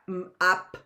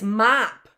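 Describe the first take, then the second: First: The sounds are split apart with a break. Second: The sounds are joined smoothly into one word. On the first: The speaker calls it wrong. "It's not m, up, right?" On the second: The speaker calls it right. "we blend those sounds together because the word is mop"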